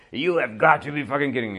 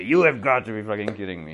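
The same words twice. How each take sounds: First: Quick mock yell of an angry hockey coach. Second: A touch louder mock coach outburst; coach yelling. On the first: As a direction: play the coach fuming at the bench. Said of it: "celou dobu řvou". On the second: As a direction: grumble it at the referee. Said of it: "Vždycky někdo vyloučí jim hráče".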